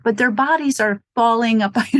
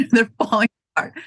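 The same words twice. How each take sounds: First: Said in the usual way. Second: "They're falling apart." said fast through a laugh. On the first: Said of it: "these people in their minds". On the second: Real, not acted. Owner joking about older customers' bodies, fast and laughing.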